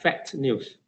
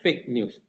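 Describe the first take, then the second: First: The first word sounds like fact. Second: The first word sounds like fake. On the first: The speaker calls it wrong. "it sounds like fact news" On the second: The speaker calls it right. "instead of fake news"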